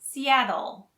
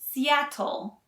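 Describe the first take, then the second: First: The middle consonant sounds like a soft D. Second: The middle consonant is a crisp T sound. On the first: The speaker calls it right. "The T's in Seattle are pronounced more like a D" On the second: The speaker calls it wrong. "we don't say Seattle"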